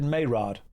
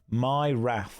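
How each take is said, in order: First: The name ends with a plain d sound. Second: The name ends with a th sound. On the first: The speaker calls it wrong. "Is it Mayrod?" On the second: The speaker calls it right. "didn't think that's how it was pronounced at all"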